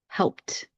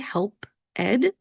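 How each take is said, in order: First: The ending is a short t sound. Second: The ending is a separate extra syllable. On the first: The speaker calls it right. "Do you hear that little t sound that I'm putting at the end of my word?" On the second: The speaker calls it wrong. "we're not going to say help ed. That's not how we pronounce it"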